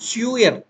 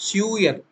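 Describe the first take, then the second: The two takes are said the same way.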